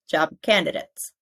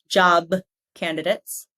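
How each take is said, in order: First: The B is held without releasing air. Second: The B is fully released with air. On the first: The speaker calls it right. "but job candidates... I don't fully push out the air" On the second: The speaker calls it wrong. "So not job candidates"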